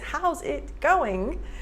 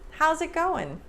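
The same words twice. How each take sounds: First: It sounds tense, rigid and formal. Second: It sounds loose, relaxed and casual. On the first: The speaker calls it wrong. "I'm tense. It's too much. It's too rigid. It's too formal" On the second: The speaker calls it right. "Relax your shoulders"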